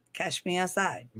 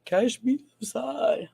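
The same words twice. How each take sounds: First: Soft, offhand catchphrase; understated mock challenge; catchphrase quote. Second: Slow, higher-pitched mock challenge; hammed-up slow taunt; drawn-out catchphrase. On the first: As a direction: toss off the catchphrase softly. Quotes a catchphrase, first take. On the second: Repeats the catchphrase, exaggerated.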